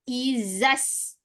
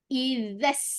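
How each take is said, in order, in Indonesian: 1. Konsonan itu adalah bunyi z keras yang berdengung. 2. Konsonan itu lembut dengan lidah di antara gigi. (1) "Tak boleh" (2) "Huruf zal"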